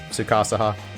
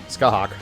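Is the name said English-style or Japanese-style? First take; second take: Japanese; English. First: The name is said with Japanese-style syllables. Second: The name is said in a clipped English style.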